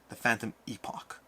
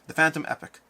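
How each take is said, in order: First: The last word ends with an 'ock' sound. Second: The last word ends with an 'ick' sound. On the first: The speaker calls it right. "It sounds cooler. Has more gravitas" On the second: The speaker calls it wrong. "pronounced Phantom Epic"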